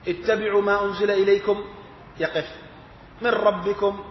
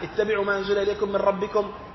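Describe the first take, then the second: First: There is a stop before the last two words. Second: The phrase runs on without a stop.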